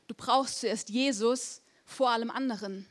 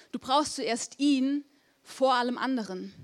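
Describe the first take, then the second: First: Said in the usual way. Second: Slowed down, every word weighed; slow emphatic repeat. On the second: Shown as a demonstration. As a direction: let it sink in slowly. (langsam und eindringlich wiederholt)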